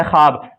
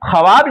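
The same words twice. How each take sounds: First: ख्वाब said khaab, the w silent; ख्वाब pronounced xaab with no w sound; read as spoken. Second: ख्वाब spelled out with the w sounded, khwaab; ख्वाब read letter by letter, w included; spelled out as written. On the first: Teacher gives students the real reading, w dropped. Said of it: "पढ़ते हैं ख्वाब". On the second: Teacher shows students the written form, w sounded. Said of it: "ख्वाब लिखा हुआ है". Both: Shown as a demonstration.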